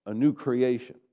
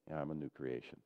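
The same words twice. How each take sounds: First: Louder, lifted, meaning every word; believing declaration. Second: Flat, soft, lower and unconvinced; half-hearted mumble. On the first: Pastor modelling how to say it with conviction, emphatic. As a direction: declare it like it's true. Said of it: "say it like you believe it". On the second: Pastor mocking a congregation saying it without belief, mumbled. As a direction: toss it off like you don't mean it. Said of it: "that's different than". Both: Shown as a demonstration.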